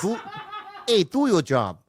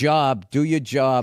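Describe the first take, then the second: First: A Boston accent gone wrong; failed Boston accent. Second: Slow Boston accent demo. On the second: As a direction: draw out the Boston vowels. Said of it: "say the line again". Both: Shown as a demonstration.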